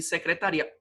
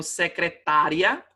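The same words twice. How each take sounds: First: "secretaria" with RI stressed before the final A. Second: "secretária" with TÁ stressed and ria short. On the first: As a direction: move the stress in "secretaria" to RI: se-cre-ta-RI-a. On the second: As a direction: hit TÁ in "secretária", as se-cre-TÁ-ria. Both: Shown as a demonstration. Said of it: "Olha a importância do acento".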